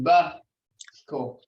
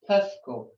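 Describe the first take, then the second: First: The word begins with a b sound. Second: The word begins with a p sound. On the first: The speaker calls it right. "it would be Busco" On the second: The speaker calls it wrong. "it couldn't be Pusco. That would be totally wrong"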